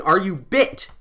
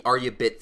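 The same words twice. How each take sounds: First: Higher, half-strength demo shout; mock shout. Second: Said in the usual way. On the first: Shown as a demonstration. Advising listeners harassed for change, mock shouting. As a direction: call it out like a challenge. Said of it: "just start shouting". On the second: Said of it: "I do the "Are you bit?" thing".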